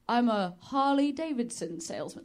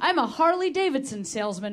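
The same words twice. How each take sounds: First: It is said in the speaker's plain voice. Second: It is said in an imitated salesman's accent.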